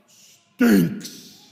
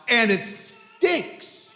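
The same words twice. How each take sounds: First: "Stinks." drawn out and louder, disgusted; emphatic stinks. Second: Said in the usual way. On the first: Shown as a demonstration. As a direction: lean hard on "Stinks.". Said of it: "When I say stinks, I'm like". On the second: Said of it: "When I say stinks".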